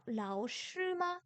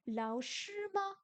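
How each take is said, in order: First: Lao shi ma dit lentement, ton corrigé; corrected tones. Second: Lao shi ma dit lentement, ton qui monte; wrong tones. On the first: (lao shi ma, prononciation corrigée) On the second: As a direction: mauvaise prononciation de ma en montant. (lao shi ma, prononciation fautive) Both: Shown as a demonstration. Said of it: "Non, lao shi ma".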